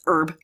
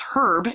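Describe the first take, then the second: First: It is said in an American accent, h silent. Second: It is said in a London accent, h pronounced.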